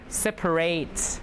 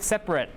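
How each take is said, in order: First: The last syllable sounds like 'ate'. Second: The last syllable sounds like 'it'. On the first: It is used as a verb. "When it's a verb" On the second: It is used as an adjective. "When it's an adjective"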